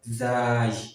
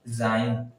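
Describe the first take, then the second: First: The word ends without an n sound. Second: The word ends with an n sound. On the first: The speaker calls it right. "the correct pronunciation is zai" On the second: The speaker calls it wrong. "Some people pronounce this incorrectly. They pronounce it as zain"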